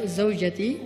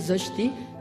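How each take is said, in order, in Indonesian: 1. Kata itu diucapkan lengkap dengan tiga suku kata. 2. Kata itu disingkat menjadi dua suku kata. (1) "Jadi manggil istri bisa Zojati" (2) "Kalau gaulnya tuh Zojti"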